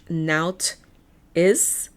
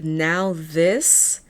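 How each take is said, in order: First: The h is silent, giving a plain t sound. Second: The h is sounded, giving a th sound.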